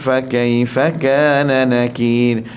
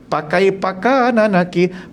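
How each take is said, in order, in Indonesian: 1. Kata-kata itu dimulai dengan bunyi f yang jelas. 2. Kata-kata itu dimulai dengan bunyi p.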